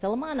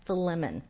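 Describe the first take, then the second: First: The name is said with a reggae-like, playful sound. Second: The name is said in a standard, plain way. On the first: The speaker calls it wrong. "I expected to hear some kind of like reggae music going on" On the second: The speaker calls it right. "it's actually pronounced Philemon"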